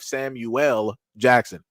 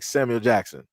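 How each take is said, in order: First: The name is said in separate, distinct parts. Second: The name is run together as one word. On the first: "instead of" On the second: "You say everything all together like"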